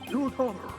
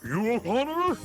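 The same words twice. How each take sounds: First: It is yelled at a faster pace. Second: It is yelled at a slower pace.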